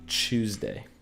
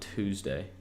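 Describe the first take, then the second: First: It is said in a put-on British accent. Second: It is said in a plain American accent.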